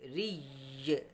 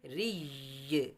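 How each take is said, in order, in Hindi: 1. यह अक्षर कठोर है, इसमें दोहरा य है। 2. यह अक्षर कठोर है, इसमें दोहरा य है।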